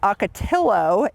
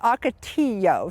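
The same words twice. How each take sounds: First: The double L is said as an L sound. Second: The double L is said as a Y sound. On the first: The speaker calls it wrong. "A lot of people pronounce this" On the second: The speaker calls it right. "it's a Y sound when you're pronouncing this"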